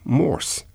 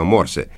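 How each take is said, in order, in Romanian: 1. Cuvântul se termină fără vocală finală pronunțată. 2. Cuvântul se termină cu o vocală finală pronunțată. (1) "exact așa cum se pronunță numele inventatorului" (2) "eu mereu am pronunțat cum se scrie"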